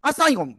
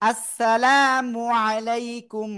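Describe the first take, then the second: First: The words are run together, dropping syllables. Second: Each word is pronounced fully and separately. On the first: The speaker calls it wrong. "এরকম দেওয়া যাবে না।" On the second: The speaker calls it right. "দেবো কেমন?"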